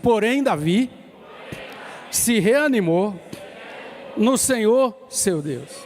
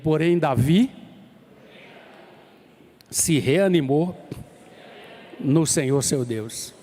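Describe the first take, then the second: First: It is said with strong, forceful emphasis. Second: It is said with normal, plain emphasis.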